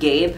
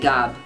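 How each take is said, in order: First: The name has an English pronunciation. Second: The name has a French pronunciation. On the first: "I pronounce it Gabe in English" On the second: "since I'm French, I say Gab"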